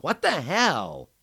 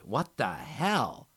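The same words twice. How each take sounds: First: Much higher and louder, slow; horrified at his wounds; dismayed friend checking his nose; stunned outrage. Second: Slow, louder, higher cry of shock; a shocked friend screaming at the sight. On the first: Sees his injuries. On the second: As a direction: scream at what she sees. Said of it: "She screamed". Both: A narrator's reading.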